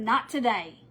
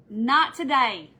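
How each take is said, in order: First: Said in the usual way. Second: "Not today." slow and louder, leaning on "Not"; emphatic repeat. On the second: Retold or imitated. Repeating her resolve to listeners, slow and emphatic. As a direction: drag out "Not today." with weight.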